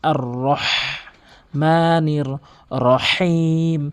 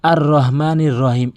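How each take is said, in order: First: The 'h' is a deep sound from mid-throat. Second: The 'h' is a plain, light breath. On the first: The speaker calls it right. "হলকের মাঝখান থেকে আর রহ আর রহ এভাবে উচ্চারণ করতে হবে" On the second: The speaker calls it wrong. "এভাবে বলে থাকে, এটি সম্পূর্ণ ভুল"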